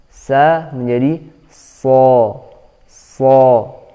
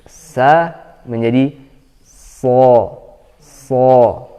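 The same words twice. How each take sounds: Both takes have the same delivery.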